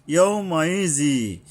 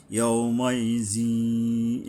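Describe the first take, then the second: First: Said in the usual way. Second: "ইয়াউমাইজি" very slow, humming through the nose on the held middle; level, drawn-out "ইয়াউমাইজি" with a long nasal glide; ghunnah. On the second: Shown as a demonstration. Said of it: "এখানে একটু গুণনা করতে হবে". ("ইয়াউমাইজি" ধীরে, গুন্নাহ করে টেনে)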